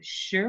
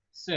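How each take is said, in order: First: "sh" as a hushing sound in place of "s"; wrong "sh" sound. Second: "s" as a plain hiss, not "sh"; corrected "s" sound. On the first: Retold or imitated. Teacher repeating a student's slip, "sh" for "s". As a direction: say the mistaken "sh" sound. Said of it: "you said "sh" instead of". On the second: Shown as a demonstration. Teacher correcting a student's sound, clean "s". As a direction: give a clean "s" with no "sh" in it. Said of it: "instead of".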